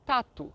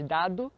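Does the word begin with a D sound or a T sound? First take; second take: T; D. First: It begins with a voiceless T sound. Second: It begins with a voiced D sound. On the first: It imitates how Chinese speakers say it. "eles falam ao invés de dado, tato" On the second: It is the standard Portuguese pronunciation. "ao invés de dado"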